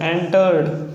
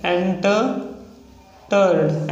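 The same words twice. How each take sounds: First: Said in the usual way. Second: एंटर्ड drawn out very slowly; slow demo of एंटर्ड. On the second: Shown as a demonstration. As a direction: stretch out एंटर्ड. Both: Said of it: "next है एंटर्ड".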